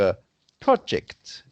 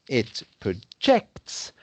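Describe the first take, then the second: First: The stress is on the first syllable. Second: The stress is on the second syllable.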